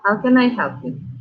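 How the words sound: It is said with a stern, unsmiling tone.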